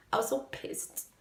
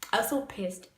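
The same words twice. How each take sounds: First: Whispered aside. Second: Said in the usual way. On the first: Real, not acted. Repeat of the phrase.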